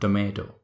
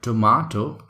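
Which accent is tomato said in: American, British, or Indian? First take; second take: Indian; British. First: It is said in an Indian accent. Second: It is said in a British accent. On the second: "So this is called tomato in British accent"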